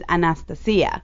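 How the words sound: The name is pronounced with Greek sounds. "The right. Greek way is Anastasia"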